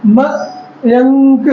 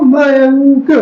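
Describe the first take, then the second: First: Mayank stretched very slowly with no break; teacher showing the voice running on through a name; very slow sounding out. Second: Mayank said slowly and evenly; teacher demonstrating a continuous sound. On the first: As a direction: draw Mayank out in one smooth line. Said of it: "आवाज regular continue चल रही है". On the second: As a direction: drag out Mayank for the class. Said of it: "ऐसे देखो Mayank". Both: Shown as a demonstration.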